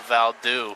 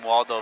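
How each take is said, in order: First: The name begins with a v sound. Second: The name begins with a w sound. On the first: This is how people in other countries say the name. "they pronounce" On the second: This is the usual local way to say the name. "the name Waldo"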